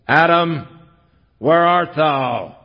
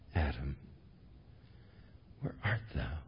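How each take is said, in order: First: It sounds stern, like an arresting officer. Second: It sounds sobbing, like a heartbroken father.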